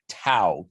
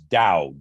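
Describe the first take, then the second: First: The word begins with a T sound. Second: The word begins with a D sound. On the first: The speaker calls it wrong. "it's usually transliterated into English with a T like tango. So it looks like Tao" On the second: The speaker calls it right. "the right way to say it is Dao"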